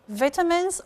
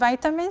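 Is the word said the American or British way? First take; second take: British; American. First: The word is said with a British pronunciation. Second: The word is said with an American pronunciation. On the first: "British pronunciation" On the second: "American pr pronunciation"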